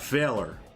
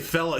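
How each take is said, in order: First: It ends with an American R sound. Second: It ends in a vowel with no R.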